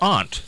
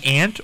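First: "aunt" with an open ah vowel; aunt as ahnt. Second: "aunt" with the short a of cat; aunt like ant. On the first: Host offers the other choice, "aunt" said as AHNT. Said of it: "pronounce the U in aunt". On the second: Host offers a choice, "aunt" said as ANT. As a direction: say "aunt" just like the insect ant. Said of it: "do you say aunt or aunt". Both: Shown as a demonstration.

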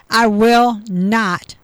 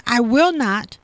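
First: "I will not" drawn out slowly and louder, every word weighted; emphatic, slow. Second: Said in the usual way. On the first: Real, not acted. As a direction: lean hard on "I will not", slow and firm. Repeats God's promise, emphatic.

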